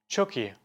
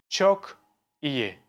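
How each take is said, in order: First: The two words run together as one sound. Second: The two words are said apart, with a break. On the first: The speaker calls it right. "I say çok iyi" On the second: The speaker calls it wrong. "I don't read it like çok iyi"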